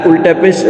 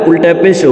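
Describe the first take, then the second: Both takes have the same delivery.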